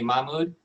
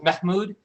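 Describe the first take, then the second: First: No H sound is heard in the middle. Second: A soft H sound is heard in the middle. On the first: This is an easier form for English speakers. "I commonly for patients I say Mahmoud" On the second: This is the name's actual pronunciation. "there's a little bit of an H... it's a very soft H"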